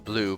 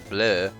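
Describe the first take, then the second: First: The name sounds like the English word blue. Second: The name is said with a French-style vowel. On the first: The speaker calls it wrong. "it's not pronounced blue" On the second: The speaker calls it right. "but bleu"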